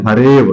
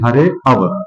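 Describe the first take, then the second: First: The words merge and the second vowel is silent. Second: The two words are said separately, vowel sounded. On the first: The joined form is read with a silent avagraha. "ऐसे पढ़ेंगे" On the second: The compound is split into its parts. "जब हम इसको विच्छेदित करते हैं तब पढ़ेंगे"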